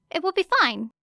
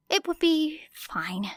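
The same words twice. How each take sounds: First: Said in the usual way. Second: Whisper. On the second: A narrator's reading. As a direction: breathe it to yourself, barely voiced. Whispered repeat to herself.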